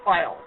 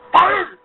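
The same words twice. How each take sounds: First: Said in the usual way. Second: Put-on overdone German accent on Fire, pitched up and punched louder; bad German accent. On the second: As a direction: say Fire like a cheesy German villain. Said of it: "sounds like a very bad German accent".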